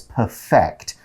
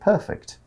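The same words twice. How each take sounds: First: The stress is on the second syllable. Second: The stress is on the first syllable. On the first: It is a verb meaning to make something flawless. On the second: It is an adjective meaning flawless.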